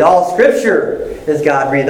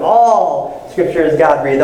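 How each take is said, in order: First: "Scripture" lifted out of the sentence; stress on SCRIPTURE. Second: "All" drawn out and emphasized; stress on ALL. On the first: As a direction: punch "Scripture", then pause briefly. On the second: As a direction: stretch "All" out long, then run on. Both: Shown as a demonstration. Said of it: "start meditating on them like that".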